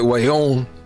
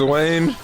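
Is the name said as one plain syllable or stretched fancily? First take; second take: fancy; plain. First: It is stretched into two syllables, posh-sounding. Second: It is said as a plain single syllable. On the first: "if you extend your pinky on it" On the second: "Like your name's Wayne"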